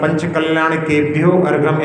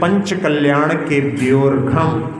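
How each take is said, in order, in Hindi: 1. argham अपने शुरुआती स्वर के साथ अलग से बोला जाता है। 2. argham पहले वाले शब्द में मिल जाता है, और उसका स्वर छूट जाता है। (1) "ऐसा पढ़ते हैं, लेकिन इस प्रकार का उच्चारण नहीं किया जाता" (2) "आकार लोप हुआ है, ऐसे पढ़ना है"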